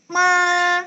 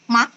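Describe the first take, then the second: First: "ma" high, long and level; first tone. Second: "ma" short and rising; second tone. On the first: Teacher explaining tone one to Dina, high flat "ma". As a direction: sustain "ma" on one high, even note. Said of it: "tinggi dan datar kayak ma". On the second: Teacher reading the syllable for Dina, rising "ma". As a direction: lift "ma" upward like a question. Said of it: "nadanya naik ke atas". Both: Shown as a demonstration.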